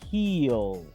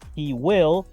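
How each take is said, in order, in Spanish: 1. He y will se unen en una sílaba corta. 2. He y will son dos palabras completas separadas.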